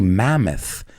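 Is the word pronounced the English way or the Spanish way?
English. It is said with a native English pronunciation. The speaker calls it right. "We say mammoth"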